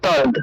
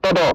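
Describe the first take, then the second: First: The final d is joined to the first syllable. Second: The two letters are pronounced separately. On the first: "উচ্চারণটা হয়ে যাবে তদ" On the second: "ত দ আলাদা আলাদা উচ্চারণ করবো"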